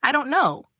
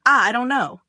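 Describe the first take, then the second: First: Higher, louder near-tearful yell; crying yell. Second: Sudden loud panicked cry, a bit higher; scream. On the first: Flustered guy yells at the teasing friend. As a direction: yell it close to tears. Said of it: "He begins almost crying and stutters, yelling". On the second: Cornered guy screams at the girl. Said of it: "He screams". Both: A narrator's reading.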